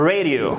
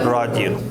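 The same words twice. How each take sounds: First: It is said with an American English accent. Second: It is said with a Dari accent. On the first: "in English we pronounce it radio" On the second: "But in Delhi or in Persian we say radio"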